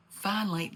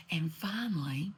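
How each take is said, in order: First: Said in the usual way. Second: A dramatic whispered finally; hushed. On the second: Real, not acted. Storyteller whispering the big reveal to her listeners. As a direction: drop to a whisper for suspense.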